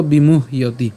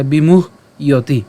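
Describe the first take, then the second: First: বিমুহ্যতি joined up, lower in pitch; said as one word. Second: বিমুহ ইয়তি in two parts, bimuh then iyoti; split in two. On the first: Teacher joins the parts, বিমুহ্যতি said in one piece. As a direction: link bimuh and iyoti into one বিমুহ্যতি. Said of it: "একসাথে উচ্চারণ করবো". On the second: Teacher builds up the word, বিমুহ ইয়তি said in parts. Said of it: "তাহলে বিমুহ". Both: Shown as a demonstration.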